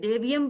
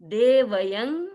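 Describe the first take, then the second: First: The 'v' joins straight onto 'y' with no vowel. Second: A full 'a' vowel comes between 'v' and 'y'. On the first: The speaker calls it wrong. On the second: The speaker calls it right.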